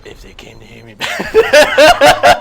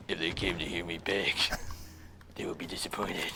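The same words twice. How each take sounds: First: Loud, strained voice at half speed; Master Chief. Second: Low, hushed impression voice; Arbiter. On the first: Acted. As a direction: push out a slow, forceful mock-hero impression. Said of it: "Here's Master Chief". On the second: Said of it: "excellent impression of the Arbiter".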